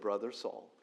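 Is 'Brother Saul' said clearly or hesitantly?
clearly. It is said clearly and firmly, without hesitation. The greeter accepts the one greeted with confidence. The speaker calls it right. "I think [name] said it clearly"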